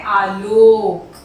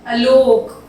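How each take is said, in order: First: आलोक said slowly and firmly; slow correct model; correct form. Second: आलोक said loudly as the mistake; the wrong word, called out; wrong form. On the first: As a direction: drag out आलोक, slow and clear. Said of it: "होता है आलोक". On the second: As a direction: call out आलोक, stressed. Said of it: "आलोक नहीं होता". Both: Shown as a demonstration.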